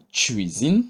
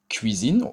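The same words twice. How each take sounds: First: "cuisine" starting on a tch sound. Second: "cuisine" starting on a hard K sound. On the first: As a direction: say "cuisine" as tchuizin, like the ch in "chip". (« cuisine » prononcé tchouizine) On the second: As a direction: say "cuisine" as kuizin, with a plain K. (« cuisine » avec un K dur) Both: Shown as a demonstration. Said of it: "qui peut être également prononcé".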